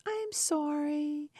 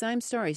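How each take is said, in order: First: High, drawn-out, pitiful apology; mock pathetic voice. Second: Said in the usual way. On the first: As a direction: imitate a pathetic little plea, slowly. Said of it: "saying this very pathetical voice". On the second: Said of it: "this phrase".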